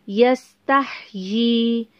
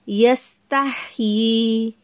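No difference in how they are said.

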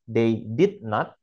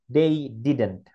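First: Not is said as a full separate word. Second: Not is contracted onto did as one word. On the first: "Kita tidak mendengar they did not" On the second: "kita mendengarnya they didn't"

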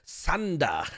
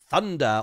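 First: It begins with an s sound, Japanese style. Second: It begins with a th sound, English style.

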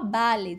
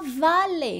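First: The word starts with a b sound. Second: The word starts with a v sound. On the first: "não fala" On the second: "eu já ouvi nativo falando o som de V"

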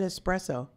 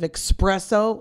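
First: The word starts with an s sound before p. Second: The word starts with a ks sound before p. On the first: The speaker calls it right. "You said it right" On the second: The speaker calls it wrong. "have you ever heard people say it the wrong way?"

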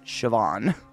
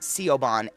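First: The name sounds like shi-VAWN. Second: The name is read letter by letter as spelled. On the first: The speaker calls it right. "For those that don't know, Siobhan is Siobhan" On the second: The speaker calls it wrong. "he had no idea he was pronouncing it wrong"

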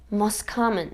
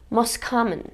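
First: The t at the end of most is dropped. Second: The t at the end of most is dropped.

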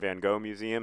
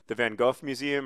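First: Van Gogh is said with an American pronunciation. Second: Van Gogh is said with a Dutch-style pronunciation.

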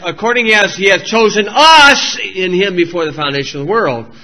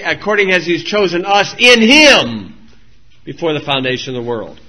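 First: The stress falls on the word us. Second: The stress falls on the word him.

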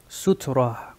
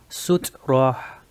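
First: It is said quickly as one word. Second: It is said slowly, split into syllables.

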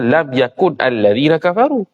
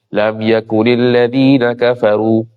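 First: Yakun ends in n with no added vowel. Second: Yakun takes an added i before the next word. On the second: "Jadi bari bawah"

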